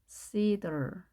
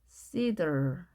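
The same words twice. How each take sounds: Both takes have the same delivery.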